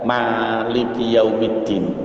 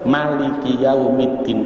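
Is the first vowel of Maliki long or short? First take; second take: long; short. First: The first vowel of Maliki is drawn out long. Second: The first vowel of Maliki is kept short. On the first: "kalau di Fatihah itu kan memnya ada yang dibaca panjang" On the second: "pendek gitu aja ada"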